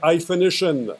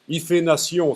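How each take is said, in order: First: It is said with an English accent. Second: It is said with a French accent. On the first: "En anglais" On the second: "si vous voulez prononcer à la franglaise"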